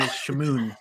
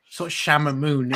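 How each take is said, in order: First: Shamoon said sha-MOON, two syllables; correct pronunciation. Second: Shamamoon said with an extra ma syllable; Shamamoon, the misspelt mispronounced name; wrong pronunciation. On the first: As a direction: say it right: Shamoon, stress on moon. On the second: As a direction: stretch it to Shamamoon, sha-ma-moon. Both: Shown as a demonstration. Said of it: "Two, two M's".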